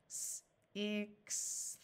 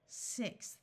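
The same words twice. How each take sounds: First: S-ixth stretched into separate sounds. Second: Said in the usual way. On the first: Shown as a demonstration. Teacher sounding out a tricky word. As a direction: segment S-ixth slowly.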